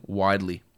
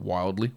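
First: WIDELY with no L before the D; careful "widely", as in wide; corrected widely. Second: WILDLY with an L before the D; the slip "wildly", as in wild; misspoken wildly. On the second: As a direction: say "wildly", sounding the L. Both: Shown as a demonstration. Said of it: "Not wildly, widely".

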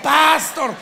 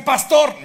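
First: "pastor" stressed on the A, PAS-tor, high and loud; "pastor" with a big, high PAS; Colombian stress on first syllable. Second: "pastor" stressed on the O, pas-TOR; "pastor" with the weight on TOR; standard stress on last syllable. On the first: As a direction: shout "pastor" as PÁS-tor. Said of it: "no en Colombia". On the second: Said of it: "todos dicen pastor". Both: Shown as a demonstration.

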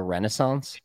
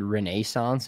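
First: Renaissance as REN-uh-sonce; American pronunciation. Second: Renaissance as ruh-NAY-sonce; British pronunciation. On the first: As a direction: Americanise Renaissance with a short uh in the middle. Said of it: "we turned it into". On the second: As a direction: give Renaissance its British long middle vowel. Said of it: "they're the ones that originated". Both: Shown as a demonstration.

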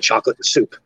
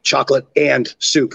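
First: Canadian accent swallowing the vowel in "and". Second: "and" said fully with a clear vowel; stress on AND. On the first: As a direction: say "and" reduced to a quick 'n', Canadian style. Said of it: "in my Canadian accent". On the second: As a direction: separate "and" from "chocolate" and "soup". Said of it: "the vowels in that and word". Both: Shown as a demonstration.

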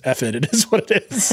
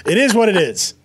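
First: Shrugging, dismissive contestant voice; reality show contestant. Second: Chuckling through the catchphrase; laughing. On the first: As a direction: toss it off like a jaded contestant. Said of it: "Top Chef making everyone just be like". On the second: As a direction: laugh while saying it. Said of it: "The worst line given to us by any reality sh". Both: Retold or imitated.

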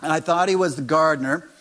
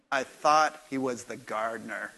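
First: "And I thought he was the gardener" repeated louder with a rise on "he"; punchline repeat. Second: A lightly voiced embarrassed Mary, lower; sheepish confession, pitched low. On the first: Retold or imitated. Preacher repeating Mary's line to the congregation, louder with a rise on "he". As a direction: land "he" as the embarrassed punch. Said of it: "only one person that could have told John that story". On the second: Mary admitting to John she mistook him, mildly embarrassed. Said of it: "She goes".

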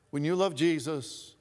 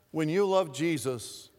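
First: "love" hit hardest in "when you love Jesus"; stress on love. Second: "you" hit hardest in "when you love Jesus"; stress on you. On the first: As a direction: lean on the word love. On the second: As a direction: lean on the word you. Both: Shown as a demonstration.

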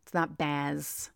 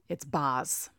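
First: "Baz" said softly with a short a, as in jazz; correct pronunciation. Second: "Baz" with a drawn New York a, like bahz; New York accent. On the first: Fan correcting his own earlier mistake on the name "Baz". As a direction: set the name straight, quiet and careful. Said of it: "I said his name wrong". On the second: Fan mocking his own New York accent on "Baz". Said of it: "With my bad New York accent". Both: Shown as a demonstration.

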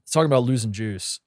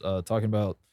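First: Said in the usual way. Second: Burp slipping into the words. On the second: Real, not acted. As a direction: say it through a burp. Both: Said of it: "excuse me, had to burp".

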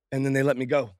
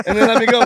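First: Said in the usual way. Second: Emphatic repeat. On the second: Real, not acted. Guest telling how security let him in, loud triumphant repeat.

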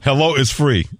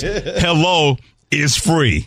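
First: Excited quote. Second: Slow, high, drawn-out hello is free; slow emphatic quote. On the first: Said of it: "I like that". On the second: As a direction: stretch each word out. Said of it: "Harry Douglas says". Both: Retold or imitated.

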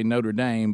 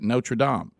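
First: Notre Dame said as NOH-ter DAYM, slowly; American pronunciation. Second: Notre Dame said as NO-truh DAHM with a nasal ending; French pronunciation. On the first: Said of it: "in America ... you say". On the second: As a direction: give Notre Dame the Paris sound. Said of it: "the way the French say it". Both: Shown as a demonstration.

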